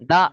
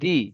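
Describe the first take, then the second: First: The word ends with a short 'uh' vowel. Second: The word ends with a long 'ee' vowel. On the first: The speaker calls it wrong. "দানা" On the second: The speaker calls it right. "দি হবে"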